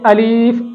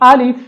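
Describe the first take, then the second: First: The second vowel is drawn out long. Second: Neither vowel is drawn out long. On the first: The speaker calls it wrong. "लाम को खींच कर पढ़ा जाता है" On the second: The speaker calls it right. "इसकी असल प्रोनाउंसिएशन है"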